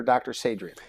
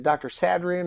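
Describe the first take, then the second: First: "Sadrian" with a long a, as in "say"; long-a pronunciation. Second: "Sadrian" with a short a, as in "sad"; short-a pronunciation. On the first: Host offers the other version, "Sadrian" starting with "say". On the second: Host checks guest's name, "Sadrian" with a flat "sad" vowel. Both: Shown as a demonstration. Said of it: "am I saying it right".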